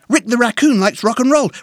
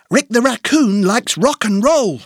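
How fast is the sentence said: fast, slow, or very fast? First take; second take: very fast; fast. First: It is said very fast, as one quick phrase. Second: It is said faster, without pauses between phrases. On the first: "Encore plus vite" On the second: "plus vite"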